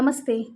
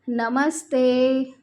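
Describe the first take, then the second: First: The word is said quickly and briefly. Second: The word is stretched a little longer.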